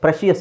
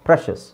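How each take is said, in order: First: The ending is said as two syllables, shee-us. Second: The ending is said as one syllable, shus. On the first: The speaker calls it wrong. "ಪ್ರೆಷಿಯಸ್ ಅಂತ ಹೇಳ್ತಾರೆ. No, that's wrong" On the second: The speaker calls it right. "ಶಸ್"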